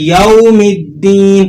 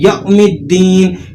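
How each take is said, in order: First: The vowel glides softly and smoothly. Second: The vowel is cut with an abrupt jolt. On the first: The speaker calls it right. "आपने इसको नरमी से पढ़ना होता है" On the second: The speaker calls it wrong. "इससे झटका लगाकर पढ़ते हैं"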